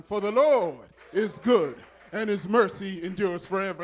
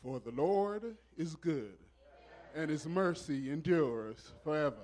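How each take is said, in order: First: Much louder, fervent proclamation; emphatic repeat. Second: Said in the usual way. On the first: Real, not acted. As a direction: preach it out loud to rouse the congregation. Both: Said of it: "say it one more time".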